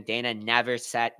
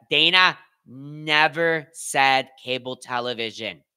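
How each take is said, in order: First: Said in the usual way. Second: "Dana never said cable television" word by word, very slowly; emphatic restatement. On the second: Real, not acted. Streamer corrects viewers on what was claimed, "never said" slow and emphatic. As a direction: spell out "Dana", "never", "said" with spaced, deliberate stresses.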